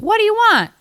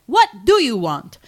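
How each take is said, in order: First: Very high, loud relayed question; first stranger's version. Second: Loud, moderately high character voice; other stranger's version. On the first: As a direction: yell it down the line, high-pitched. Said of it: "a little bit differently". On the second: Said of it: "the other guy's like". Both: Retold or imitated.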